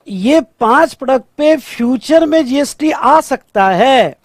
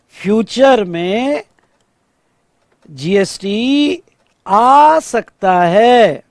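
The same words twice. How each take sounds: First: Said in the usual way. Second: Very slow, drawn-out "future में", "GST", "आ सकता है" with pauses; slow emphatic repeat. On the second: Shown as a demonstration. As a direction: stretch each chunk, pausing after "future में" and "GST". Key answer repeated slowly for emphasis. ("Future में… GST… आ सकता है" खींचकर, रुक-रुककर)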